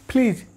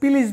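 First: The p is said with a burst of air. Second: The p is said without a burst of air. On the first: The speaker calls it right. "পি এর উচ্চারণ হবে ফ, এবং এই ফ উচ্চারণ হবে দুই ঠোঁট চেপে ফ" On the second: The speaker calls it wrong. "এটা প্লিজ না"

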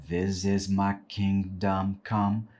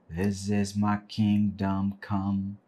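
No difference in how they are said.

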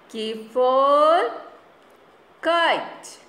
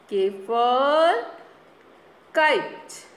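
No difference in how they are said.

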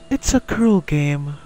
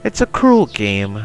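First: It is said in a put-on female voice. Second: It is said in the reader's normal voice. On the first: The speaker calls it right. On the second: The speaker calls it wrong.

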